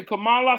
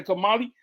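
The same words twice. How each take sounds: First: Kamala ending in an "ah" sound; pronounced Kamala. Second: Kamali ending in an "ee" sound; pronounced Kamali. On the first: Showing the panel one way to say the name, Kamala ending in "ah". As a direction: say Kamala with a final "luh". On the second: Showing the panel another way to say the name, Kamali ending in "ee". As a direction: say Kamali with a final "lee". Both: Shown as a demonstration. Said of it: "I don't know the, the correct pronunciation".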